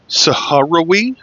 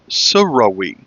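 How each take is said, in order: First: The name is said with one more syllable. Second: The name is said with one fewer syllable. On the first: This is how people in America say it. "if you're in America, the uh, actual pronunciation is" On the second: This is how people who live there say it. "one fewer syllable. They would call it"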